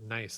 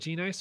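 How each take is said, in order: First: The name starts directly with an N sound. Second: The name starts with a spoken G sound. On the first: The name is read as the rock. "I just pronounced it Nice, as in like the rock" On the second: The G is the first initial of the name. "I always went with G Nice because it's his first initial"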